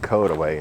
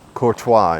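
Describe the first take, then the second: First: The name is said like 'koda-way'. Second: The name is said like French 'kor-twah'. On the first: This is how locals say it. The speaker calls it right. "Courtois is pronounced Kodaway in Missouri" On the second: This is how an outsider would read it. The speaker calls it wrong. "I pronounced it Courtois. I was wrong"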